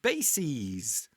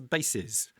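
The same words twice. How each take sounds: First: The final syllable sounds like 'seez'. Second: The final syllable sounds like 'siz'. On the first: It is the plural of basis. "multiple analyses or crises and bases" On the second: It is the plural of base. "which is the plural of the singular noun base"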